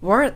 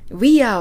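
First: The two words are contracted into one syllable. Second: Both words are said fully and separately. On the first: "we're と発音してみましょう" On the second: "we are をですねwe're と発音してみましょう"

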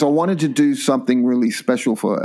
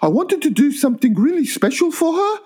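First: It is said in the speaker's own voice. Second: It is said imitating the woman's voice.

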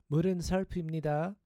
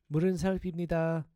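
Both takes have the same delivery.

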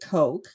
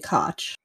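First: The name sounds like the drink 'Coke'. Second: The name is read as spelled, unlike 'Coke'. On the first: The speaker calls it right. "pretty sure it's pronounced Coke" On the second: The speaker calls it wrong. "I can't read that and not say Koch"

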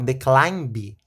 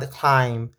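First: It is said with a Brazilian Portuguese accent. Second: It is said with a native English accent.

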